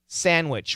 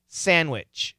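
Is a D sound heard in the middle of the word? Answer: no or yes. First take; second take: no; no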